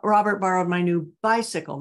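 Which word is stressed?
bicycle. The word 'bicycle' is stressed. It was the bicycle and not the book. "not my new book"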